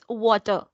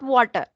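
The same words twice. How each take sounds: First: The R sound is pronounced softly. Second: The R sound is pronounced strongly. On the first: The speaker calls it right. "we should not stress on R" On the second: The speaker calls it wrong. "we people are stressing on R"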